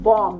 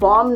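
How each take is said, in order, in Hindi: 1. अंतिम b ध्वनि मूक है। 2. अंतिम b ध्वनि उच्चारित होती है। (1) "it will be pronounced as bomb" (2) "bomb नहीं होगा"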